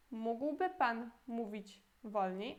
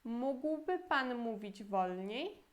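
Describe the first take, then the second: First: Slow second model of the same question; slow teaching repeat. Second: Slow, careful Polish model sentence; slow teaching read; slow model phrase. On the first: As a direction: repeat it slowly so they can copy. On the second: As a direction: spell it out slowly for learners. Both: Shown as a demonstration. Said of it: "E a pergunta toda".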